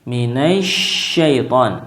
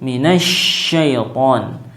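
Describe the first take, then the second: First: Syaiton begins with an sh sound. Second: The same.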